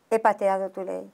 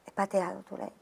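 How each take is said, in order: First: Said in the usual way. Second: Much softer, nearly whispered; whispered confession. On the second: Retold or imitated. Confessing to God in a whisper, ashamed. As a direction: confess it under your breath.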